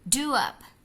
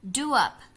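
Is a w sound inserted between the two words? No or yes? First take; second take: Yes; Yes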